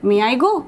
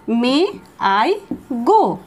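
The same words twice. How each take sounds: First: Said in the usual way. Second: Spaced-out words. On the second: Shown as a demonstration. Teacher telling students how to ask permission, slow drill. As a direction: say it one word at a time. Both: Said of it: "তাহলে বলো".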